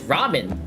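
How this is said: It is said with a Japanese pronunciation. "like the Japanese"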